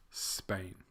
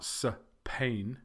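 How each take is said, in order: First: Said in the usual way. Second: Spain as suh-PAIN; split into two syllables. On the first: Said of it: "it's Spain". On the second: Shown as a demonstration. Teacher showing learners a mistake, Spain said as suh-PAIN. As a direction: Spain with a vowel between S and P. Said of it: "It's not".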